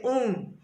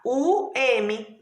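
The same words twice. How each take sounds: First: Said in the usual way. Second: "U M" as two slow, separate letters; split syllable. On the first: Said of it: "tem que ser um". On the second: Shown as a demonstration. Teacher shows um cannot be split, "U M" slowly separated. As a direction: pull "U M" apart, letter by letter. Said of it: "eu vou separar U tracinho M".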